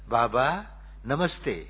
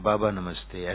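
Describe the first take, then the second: First: It is said wakefully, with full attention and warmth. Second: It is said carelessly, as if half asleep. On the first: The greeting is offered fully and from the heart. The speaker calls it right. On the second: The greeting does not really reach its recipient. The speaker calls it wrong.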